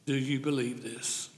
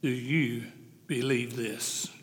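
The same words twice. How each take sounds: First: Soft question. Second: Believe drawn out slow and soft; slow, soft question. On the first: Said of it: "the most important question". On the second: Preacher to congregation, slow soft "believe". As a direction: lean in and ask "believe" slowly. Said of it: "listen to the last part". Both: Shown as a demonstration.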